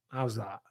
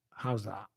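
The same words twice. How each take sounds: The two takes are said the same way.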